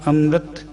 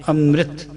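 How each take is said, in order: Both takes have the same delivery.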